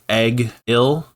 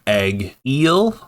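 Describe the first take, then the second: First: It starts like egg and ends with ill. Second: It starts like egg and ends with eel. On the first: "one character pronounced his name Egg-il" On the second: "another pronounced his name Egg-eel, like uh, the fish"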